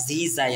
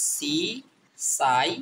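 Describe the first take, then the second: First: "জি যাই" with a voiced z; Z reading. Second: "সি সাই" with a voiceless s; S reading. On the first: Teacher showing learners the other sound of S, voiced z in "জি যাই". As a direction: buzz the first sound of "জি যাই". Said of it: "বর্গীয় জ মতো". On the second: Teacher showing learners one sound of S, voiceless s in "সি সাই". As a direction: begin both "সি সাই" syllables with s. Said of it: "দন্তস্বর মতো". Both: Shown as a demonstration.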